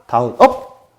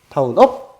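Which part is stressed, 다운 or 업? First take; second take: 업; 업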